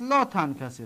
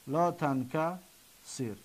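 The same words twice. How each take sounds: First: Said in the usual way. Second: لا تنکسر slowly and softly, pausing before the final sir; slow, broken up. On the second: Shown as a demonstration. Teacher breaking down the prohibition, slow and broken up. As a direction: draw out لا تنکسر in separate pieces. Then repeats it slowly in pieces.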